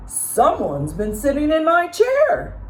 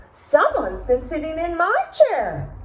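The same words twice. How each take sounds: First: Papa Bear growling. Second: Mama Bear yelping. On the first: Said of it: "Papa Bear growled". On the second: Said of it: "Mama Bear yelped". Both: A narrator's reading.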